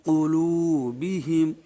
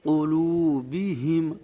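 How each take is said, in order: Both takes have the same delivery.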